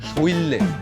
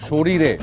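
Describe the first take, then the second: First: The middle is slurred with an 'l' sound. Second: The middle is fully said with 'r' sounds. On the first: The speaker calls it wrong. "শৈল্যে কি?" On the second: The speaker calls it right. "এটা হচ্ছে সঠিক উচ্চারণ।"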